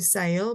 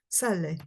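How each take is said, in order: First: The word ends without a final vowel sound. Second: The word ends with a clear final vowel sound. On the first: The speaker calls it wrong. "number two is not going to be sail" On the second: The speaker calls it right. "probably it's going to be sale"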